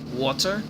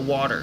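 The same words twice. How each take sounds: First: The middle consonant is a clear t sound. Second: The middle consonant is a soft d sound. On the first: The speaker calls it right. "they pronounce water, water, like correctly" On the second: The speaker calls it wrong. "We pronounce it lazily with a D. We go water"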